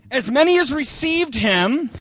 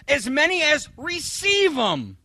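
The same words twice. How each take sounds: First: Said in the usual way. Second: Slow, sing-song misquote falling at the end; mock misreading. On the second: Shown as a demonstration. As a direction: drag it out like the lazy misquote. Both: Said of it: "isn't that what it says?".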